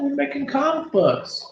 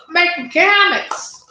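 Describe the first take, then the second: First: High silly voice. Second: Much higher, louder cartoon voice; high silly voice. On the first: Pretend. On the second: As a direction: squeal it high and loud.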